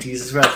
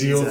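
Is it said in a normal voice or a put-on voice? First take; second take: normal voice; put-on voice. First: It is said in his normal voice. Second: It is said in a put-on character voice.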